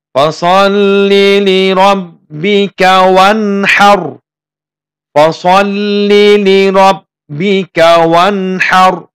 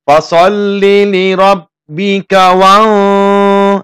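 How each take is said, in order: First: Slow chanted Fasalli li rabbika wanhar, higher; sung, recite with a clear n before h; sung, Quran recitation. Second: Chanted fasalli li rabbika wan- with the n held and hummed; wrong nasal reading. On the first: Teacher demonstrating correct reading, slow melodic chant. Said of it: "Di sini ada contohnya". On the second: Teacher demonstrating the wrong nasal reading, chanted. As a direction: hum the nun, the mistaken way. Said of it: "nah, itu salah membacanya ya". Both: Shown as a demonstration.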